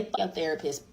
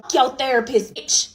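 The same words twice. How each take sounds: First: Muttered version. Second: Mock outburst. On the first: Retold or imitated. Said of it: "but I did say". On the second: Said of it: "I didn't say bitch".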